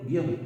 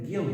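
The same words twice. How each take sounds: First: Guión split in two, gui-ón; two-syllable guión. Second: Guión squeezed into one syllable, gion; wrong one-syllable guión. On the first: Teacher shows how students really say guión, two syllables. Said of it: "Tú dices". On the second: Teacher shows the wrong guión in one syllable. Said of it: "Tú no dices guión". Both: Shown as a demonstration.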